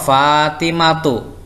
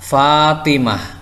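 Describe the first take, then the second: First: The word ends with a t sound and vowel. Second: The word ends with a soft h sound. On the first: The reading continues on without stopping. "ketika wasol Fatimatu" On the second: The reading stops on this word. "ketika dibaca wakof dibaca Fatimah"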